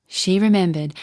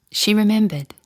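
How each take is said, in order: Both takes have the same delivery.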